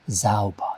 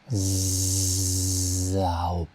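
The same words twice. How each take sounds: First: The word is said short and quick. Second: The word is said slowly and drawn out. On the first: "이렇게 짧게 하지 않고" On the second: "이렇게 연습하도록 하게 하죠"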